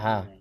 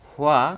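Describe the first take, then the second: First: The syllable is reduced to ha without glide. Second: The syllable is said fully with a w-glide. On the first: "হুয়াটাকে যখন কোরিয়ানরা উচ্চারণ করে তখন হা হয়ে যায়" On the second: "এখানে হুয়া"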